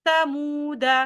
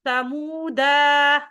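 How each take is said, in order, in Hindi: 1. अलिफ़ मौन रहता है और स्वर छोटा होता है। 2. मौन अलिफ़ को लंबे स्वर की तरह पढ़ा जाता है। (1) "इस तरीके से पढ़ेंगे" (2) "गलत"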